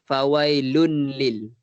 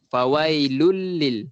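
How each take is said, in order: First: The n is kept and heard before the l. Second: The n merges fully into the l, without nasal hum. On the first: The speaker calls it wrong. "ada kadang saya dengar orang baca fawailun lil. Salah lah" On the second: The speaker calls it right. "Dia terus masuk. ... Lul terus"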